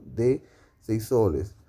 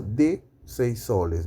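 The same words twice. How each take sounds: First: "De" stressed, whole phrase slowed; slow emphatic repeat. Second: Said in the usual way. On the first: Shown as a demonstration. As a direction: lean on "De" and slow down for the class. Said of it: "teacher repeats example slowly". ("De" enfatizado, más despacio) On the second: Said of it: "teacher repeats example".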